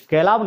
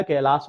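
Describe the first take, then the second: First: कैलाव ending in a v sound; wrong ending. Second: कैलाश ending in a sh sound; correct ending. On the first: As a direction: say कैलाव with a final व as the mistake. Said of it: "कैलाव नहीं होता है". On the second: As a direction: close कैलाश with a clear श. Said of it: "कैलाश होता है". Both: Shown as a demonstration.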